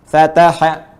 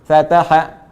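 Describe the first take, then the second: The two takes are said the same way.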